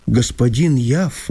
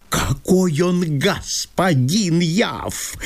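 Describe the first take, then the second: First: Said in the usual way. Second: Slow, drawn-out mocking echo of her words; mocking mimicry. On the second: Chertopkhanov mocking Masha's words about Yav, slow and sneering. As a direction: mimic her to ridicule the rival. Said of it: "передразнил её Чертопханов".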